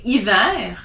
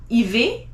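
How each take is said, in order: First: Hiver ending in an open air, ee-vair; right hiver. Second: Hiver ending in ay, ee-vay; wrong hiver. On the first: Teacher giving the right hiver. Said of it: "you say hiver". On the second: Teacher showing the wrong hiver. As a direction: end hiver like aller, ee-vay. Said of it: "you don't say hiver". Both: Shown as a demonstration.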